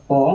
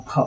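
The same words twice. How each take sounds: First: ᱯᱚ with no puff of breath; letter-sound demo of unaspirated ᱯᱚ. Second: ᱯᱷᱚ with a puff of breath after the p; letter-sound demo of aspirated ᱯᱷᱚ. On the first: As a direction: say ᱯᱚ as a plain p plus o. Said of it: "ᱱᱚᱣᱟ ᱫᱚ ᱯᱚ ᱠᱟᱱᱟ". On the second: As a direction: say ᱯᱷᱚ as p blended with h. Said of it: "ᱪᱮᱫ ᱵᱚᱱ ᱩᱪᱪᱟᱨᱚᱱᱟ". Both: Shown as a demonstration.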